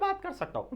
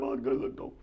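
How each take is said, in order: First: The voice is high and thin. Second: The voice is low and thick. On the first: "पतली आवाज में भी बात कर सकता हूं" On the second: "मैं मोटी आवाज में भी बात कर सकता हूं"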